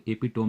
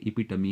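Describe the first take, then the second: First: "एपिटोम" ending in a closed -tom, no final ee; wrong pronunciation. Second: "एपिटमी" as four syllables, e-pi-tuh-mee; correct pronunciation. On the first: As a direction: say "एपिटोम" as three syllables, e-pi-TOM. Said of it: "इसको एपिटोम नहीं बोलेंगे". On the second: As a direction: end "एपिटमी" on an open -mee. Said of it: "इसको एपिटोम नहीं बोलेंगे, एपिटमी है". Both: Shown as a demonstration.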